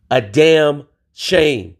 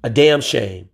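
First: Slow, drawn-out damn shame; emphatic repeat. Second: Said in the usual way. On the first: Shown as a demonstration. Scolding the community, slow and drawn out. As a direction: stretch out "A damn shame" slowly.

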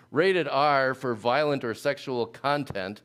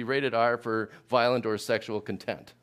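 First: "content" stressed on the first syllable; CON-tent. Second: "content" stressed on the second syllable; con-TENT. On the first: Preacher reading a Netflix rating, CON-tent. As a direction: say "content" as KON-tent, the noun. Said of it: "depending on how you pronounce that word". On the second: Preacher misreading a Netflix rating for contrast, con-TENT. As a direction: say "content" as kun-TENT, meaning satisfied. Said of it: "where you put the emphasis". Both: Shown as a demonstration.

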